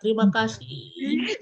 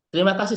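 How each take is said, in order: First: The vowel is held for six beats. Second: It is said at normal, quick length.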